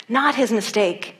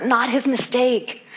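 First: "not" hit firmest, "his mistake" falling; stress on not. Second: "his" drawn out and leaned on, slowly; slow stress on his. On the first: Preacher correcting himself to the congregation, stress on "not". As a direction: land on "not". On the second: Preacher driving home "his" to the congregation, slow and stressed. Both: Shown as a demonstration. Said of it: "this is the part that I want you to catch".

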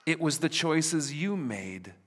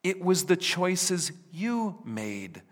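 First: "you" stressed, pointing at the listener. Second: "the" stretched and weighted, slow; stress on THE. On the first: Preacher rephrasing to his congregation, weight on "you". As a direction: hit "you" in "you made". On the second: Preacher rephrasing to his congregation, weight on "the". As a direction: lean on "the" in "the choices". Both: Shown as a demonstration. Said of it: "Can I rephrase?".

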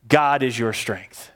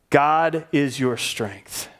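First: Said in the usual way. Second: "God is your strength" drawn out, GOD leaned on; slower, stressed repeat. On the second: Shown as a demonstration. Preacher repeating the line for the congregation, slower and heavier. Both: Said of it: "Say it again".

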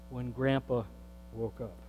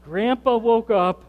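First: When Grandpa woke up dropped to a soft, low hush. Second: Grandpa woke up proclaimed louder and higher; emphatic. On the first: Pastor to congregation, hushed in awe. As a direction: let woke up fall away almost to a whisper. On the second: Pastor to congregation, amazed and emphatic. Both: Real, not acted.

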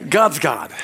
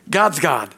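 Both takes have the same delivery.

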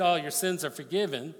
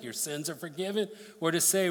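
First: A tossed-off "Oh, your sins are forgiven" as if it cost nothing; offhand, casual. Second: Said in the usual way. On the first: Pretend. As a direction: say it lightly, like a throwaway line. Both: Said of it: "was it easier if I just said".

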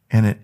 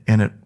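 The two takes are said the same way.

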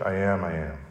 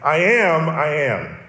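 First: "I am, I am" spoken softly and low; quiet awed repetition; hushed reverent I am. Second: Emphatic repeated "I am, I am"; emphatic doubled I am. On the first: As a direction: drop the voice for "I am, I am". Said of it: "the very same thing that Jesus says". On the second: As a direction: stress "I am, I am" like a solemn declaration. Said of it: "it's like saying". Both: Shown as a demonstration.

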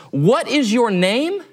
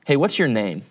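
First: Slow, higher-pitched, drawn-out question; stern demand. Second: An even, contained question, lightly voiced; mildly gracious. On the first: Retold or imitated. Alexander confronts the soldier one more time, stern demand. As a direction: space out every word, rising hard at the end. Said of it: "his voice is a little sterner". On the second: Alexander, deciding to be gracious, asks the sleeping soldier, mildly gracious. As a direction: ask it calmly, giving a second chance. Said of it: "deciding to be a little bit gracious".

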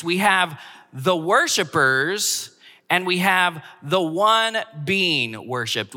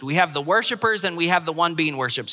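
First: Drawn out, each word set apart; slow and deliberate. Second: Fast, brisk run-through; quick recap. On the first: Pastor introducing the point to his congregation, slow and deliberate. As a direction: lay it out slowly so it sinks in. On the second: Pastor repeating his point for the congregation, quick and brisk. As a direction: rattle it off as a summary. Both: Shown as a demonstration.

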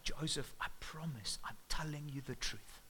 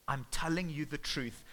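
First: Softer, whispered tearful plea. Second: Said in the usual way. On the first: Acted. Mary pleading with Joseph in tears, whispered and much softer. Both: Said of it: "in tears".

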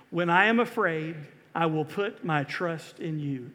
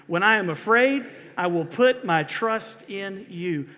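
First: Said in the usual way. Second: Raised, emphatic recitation with conviction; louder, meaning it. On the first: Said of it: "You say it with me". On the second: Shown as a demonstration. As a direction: lead the congregation louder, like you mean it. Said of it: "Say it louder like you mean it".

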